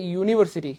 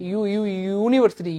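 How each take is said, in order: First: Said in the usual way. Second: ইউনিভার্সিটি slowly, its "yoo" repeated and stretched; stressed opening sound. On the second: Shown as a demonstration. Teacher proving the "yoo" sound, ইউনিভার্সিটি with stretched opening. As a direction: draw out ইউ before completing ইউনিভার্সিটি. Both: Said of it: "ইউর মতো উচ্চারণ হচ্ছে".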